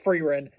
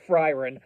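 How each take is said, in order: First: The first syllable sounds like 'free'. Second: The first syllable sounds like 'fry'. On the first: The speaker calls it right. "her name is pronounced Freerun" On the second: The speaker calls it wrong. "not Fryron"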